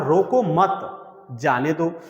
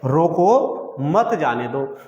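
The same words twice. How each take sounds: First: The pause comes right after मत. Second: The pause comes right after रोको.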